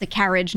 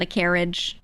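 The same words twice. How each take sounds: First: CARRIAGE with a short "a" as in cat; own regional pronunciation. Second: CARRIAGE said like "care-idge"; rejected pronunciation. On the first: Streamer correcting others' vowels, Northeastern pronunciation. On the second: Streamer showing the wrong way, mimicked pronunciation. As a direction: turn carriage's first vowel into "care". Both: Shown as a demonstration. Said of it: "not a carriage".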